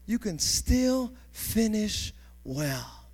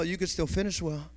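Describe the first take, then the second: First: Drawn-out reassuring emphasis on still; slow emphatic. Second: Said in the usual way. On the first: Shown as a demonstration. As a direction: still stressed, slow and deliberate.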